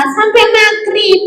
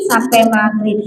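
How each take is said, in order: First: High puppet voice; high-pitched parroted answer; puppet pupil. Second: Said in the usual way. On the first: Acted. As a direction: echo it high as a little puppet.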